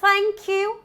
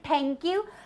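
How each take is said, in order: First: The tongue tip comes out between the teeth. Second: The tongue pulls inward, with no dental th. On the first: The speaker calls it right. "But it's thank you" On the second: The speaker calls it wrong. "my tongue is moving inwards. It's rolling. That's incorrect"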